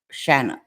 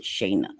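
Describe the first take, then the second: First: Shanna with a flat short a, SHAN-na; name said Shanna. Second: Shayna with a long a, SHAY-na; name said Shayna. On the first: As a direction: say Shanna like the a in can. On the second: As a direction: say Shayna rhyming with day. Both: Shown as a demonstration. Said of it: "they pronounce it Shayna".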